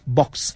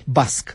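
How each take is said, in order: First: The word is said as English 'box'. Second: The word is said as 'basc'. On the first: "nimeni nu poate pronunța acest cuvânt complicat" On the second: "toată lumea spune în spiritul limbii basc"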